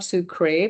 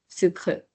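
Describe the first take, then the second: First: The word ends with a clear 'ay' vowel sound. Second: The word ends quickly with no full final vowel. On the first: The speaker calls it wrong. "it's not sucré" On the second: The speaker calls it right. "very swift end at the end"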